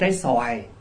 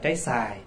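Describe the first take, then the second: First: The word is said with the full 'oa' glide. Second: The word is said without the 'o' glide.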